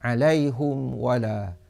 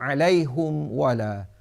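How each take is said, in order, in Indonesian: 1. Ha bervokal u; mim tidak ada vokal. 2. Ha bervokal u; mim tidak ada vokal.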